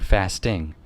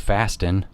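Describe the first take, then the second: First: The word ends with its full final g sound. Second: The word ends without its final g sound. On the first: The speaker sounds professional. The speaker calls it right. "Finish the word" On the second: The speaker sounds casual and less professional. The speaker calls it wrong. "I wouldn't say fasting"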